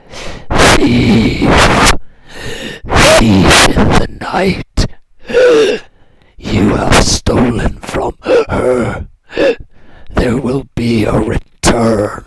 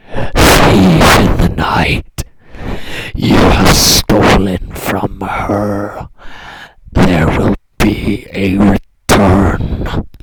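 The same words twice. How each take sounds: First: Loud, slow, ghostly roar of the dead; booming corpse voice. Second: Low, slow, loud rattling croak; dry croaking dead voice. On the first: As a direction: bellow it slowly like a vengeful corpse. Corpse accuses the thief. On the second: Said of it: "The voice rattled out, dry and croaking". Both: Acted.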